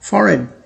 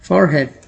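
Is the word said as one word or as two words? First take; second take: one word; two words. First: It is said as one word, run together. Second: It is said as two separate words, for head. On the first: The speaker calls it right. "इस word को कुछ इस तरह से pronounce किया जाता है" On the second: The speaker calls it wrong. "इसे लोग पढ़ते हैं फॉर हेड ... वो गलत है"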